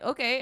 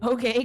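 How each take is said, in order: First: The voice falls at the end like a statement. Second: The voice rises at the end like a question.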